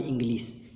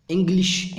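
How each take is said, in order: First: इंग्लिश with a plain s at the end, softer; teacher imitates the common mistake, इंग्लिश ending in s; wrong English pronunciation. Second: इंग्लिश with a clear sh sound at the end, said louder; teacher models इंग्लिश ending in a crisp sh; correct English pronunciation. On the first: Teacher showing students the wrong way to say इंग्लिश, ending in s. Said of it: "ना कि इंग्लिश". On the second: Teacher showing students the right way to say इंग्लिश, crisp sh. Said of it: "इंग्लिश होता है, ना कि इंग्लिश". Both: Shown as a demonstration.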